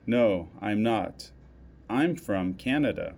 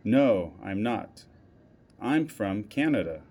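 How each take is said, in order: Both takes have the same delivery.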